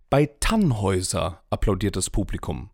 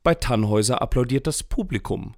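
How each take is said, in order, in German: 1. Das Wort Tannhäuser trägt die Hauptbetonung. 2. Das Wort Publikum trägt die Hauptbetonung. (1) "Beim Lohengrin hält sich die Begeisterung in Grenzen" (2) "Die Kritiker fanden es eher so mittel"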